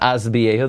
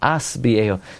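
First: The first word ends with a z sound. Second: The first word ends with an s sound. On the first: The speaker calls it wrong. "It's not az biyehu. There's no such word" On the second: The speaker calls it right. "It's as biyehu"

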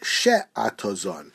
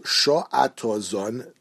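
First: The first vowel sounds like e. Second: The first vowel sounds like o. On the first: The speaker calls it wrong. "not she'atozon. There's a komatz tachas hashin instead of a segol" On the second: The speaker calls it right. "the nusach is sho'atozon"

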